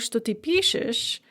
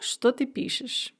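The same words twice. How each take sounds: First: The word что is left unstressed. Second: The word что carries stress. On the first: It means that you write. "что can also be pronounced as unstressed" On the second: It means what you're writing. "I've marked the stress here with что"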